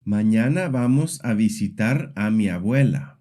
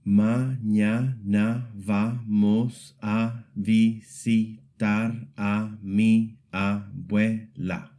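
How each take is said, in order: First: "Mañana vamos a visitar a mi abuela" in connected flow; even syllable weight. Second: "Mañana vamos a visitar a mi abuela" at half speed, level pitch; slow syllable-by-syllable demo. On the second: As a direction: sound out "Mañana vamos a visitar a mi abuela" slowly, each syllable separate and equal. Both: Shown as a demonstration. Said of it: "every syllable gets about the same weight".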